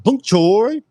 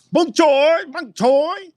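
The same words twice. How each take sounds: First: "Bok choy" said higher and louder, settled; name confirmed. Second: "Bok choy" said much higher, twice, unsure of the name; guessing a name. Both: Shown as a demonstration. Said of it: "who there says it's bok choy?".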